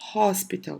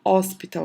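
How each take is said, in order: First: The word starts with a breathy h sound. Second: The word starts without an h sound. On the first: The speaker calls it right. "eu falo hospital. Tem som de R" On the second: The speaker calls it wrong. "eu não falo hospital"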